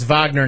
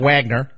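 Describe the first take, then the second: First: The name is said the German way. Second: The name is said the English way. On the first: The speaker calls it right. "That's how I know it's Wagner" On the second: The speaker calls it wrong. "not Wagner"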